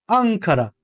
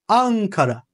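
Both takes have the same delivery.

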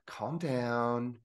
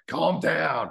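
First: It is said softly and soothingly. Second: It is shouted loudly and harshly. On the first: The speaker calls it right. "the proper tone, something that's calming" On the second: The speaker calls it wrong. "And they're just screaming at you"

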